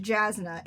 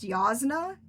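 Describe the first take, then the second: First: Jasna with an English J; expected pronunciation. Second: Yasna starting with a Y, open "ah"; in-world pronunciation. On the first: Reader says the name as spelled, Jasna with hard English J. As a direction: start Jasna like "jazz". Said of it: "As you would expect". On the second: Reader gives the book's own version, Yasna with Y sound. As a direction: say Yasna as YAHZ-nuh. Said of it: "it is pronounced Yasna". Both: Shown as a demonstration.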